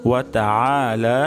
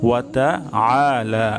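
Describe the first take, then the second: The two takes are said the same way.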